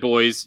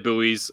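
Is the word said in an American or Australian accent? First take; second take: Australian; American. First: It is said the Australian way, like boys. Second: It is said the American way, like boo-ees.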